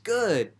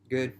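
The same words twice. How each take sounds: First: The word sounds upbeat and enthusiastic. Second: The word sounds low and miserable. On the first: Things are going great. "that can actually mean, you know, awesome, I'm doing great" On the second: Things are going horribly. "it could mean that, you know, oh, day's real shitty"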